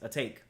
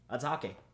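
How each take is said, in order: First: It is read as the English words a take. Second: It is read as one Japanese-style name. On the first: "you guys saying it's simply a take" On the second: "that's how you would say it in a Japanese, you know, context"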